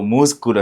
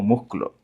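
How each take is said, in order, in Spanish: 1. El sonido de la s se pronuncia claramente. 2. El sonido de la s se omite o se suaviza.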